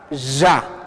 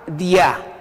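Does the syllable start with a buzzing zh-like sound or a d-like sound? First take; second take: buzzing; d-like. First: It starts with a buzzing zh-like consonant. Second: It starts with a d-like stop consonant. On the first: This is how the Porcón variety says it. "Es el sonido que se utiliza al estilo de porcón" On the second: This is how the Chetilla variety says it. "ustedes pronuncian a esta L como di, ti. Si está acompañado con la letra A, dia"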